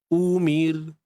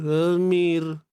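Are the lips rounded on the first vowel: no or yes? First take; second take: yes; no. First: The first vowel is said with rounded lips. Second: The first vowel is said with unrounded lips. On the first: The speaker calls it right. "kalau kita muncung" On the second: The speaker calls it wrong. "Kalau kita tak muncung betul-betul"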